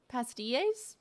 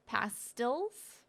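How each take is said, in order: First: "Pastilles" as pas-tee-AYS, questioning; Spanish-sounding pronunciation. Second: "pastilles" as PASS-tills, questioning; English pronunciation. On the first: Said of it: "Kinda sounds Spanish". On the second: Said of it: "I don't think that's how it's pronounced". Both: Shown as a demonstration.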